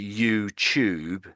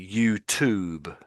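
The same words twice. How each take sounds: First: The t sounds like ch. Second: The t is a plain t sound. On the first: "in Britain we would say YouTube. So we're saying for the T we'd make a ch" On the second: "But the Americans would say YouTube"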